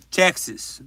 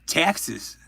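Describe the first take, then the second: No difference in how they are said.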